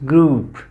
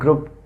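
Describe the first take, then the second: First: The vowel is a long oo. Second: The vowel is short. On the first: The speaker calls it right. "There is long vowel sound oo" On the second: The speaker calls it wrong. "This is not group"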